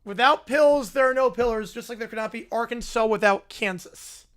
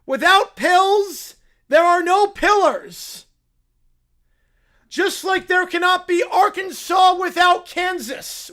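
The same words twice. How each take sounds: First: Flatly parroting "Without pills, there are no pillars", barely acted; a lightly voiced echo of his pitch; mock repeat. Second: Slow, grave, higher pronouncement of "Without pills, there are no pillars"; slow solemn pitch. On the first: Reacting streamer repeats Caillou's pitch, lightly mocking. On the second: Acted. Caillou pitching his idea in slow grave tones. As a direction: deliver it like a solemn sales pitch, slowly. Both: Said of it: "That's his entire pitch".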